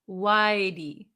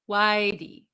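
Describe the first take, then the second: First: The words run together and the h is dropped. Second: The words run together and the h is dropped.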